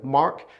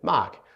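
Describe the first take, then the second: First: It has an American accent with a sounded R. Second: It has a New Zealand accent with no R.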